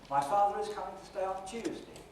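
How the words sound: It is said as one unbroken phrase. "the sentence said as one word group"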